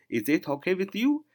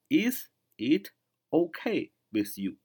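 First: The words are run together smoothly. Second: The words are said slowly and separately. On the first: "连读就是" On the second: "慢点读就是"

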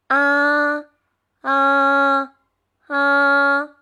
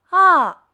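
First: The pitch stays high and level. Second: The pitch falls sharply from high to low. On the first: "汽车平走" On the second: "汽车下坡"

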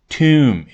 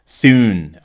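First: It is said like 'tune', with a t sound. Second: It is said like 'thun'. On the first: The speaker calls it right. "而是Tune，也就是th，听上去是t 这个发音" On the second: The speaker calls it wrong. "不是Thun 或者Thun"

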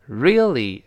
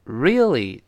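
The two takes are said the same way.

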